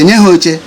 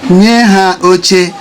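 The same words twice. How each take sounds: First: The final vowel merges into the next vowel. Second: Each vowel is pronounced fully and separately.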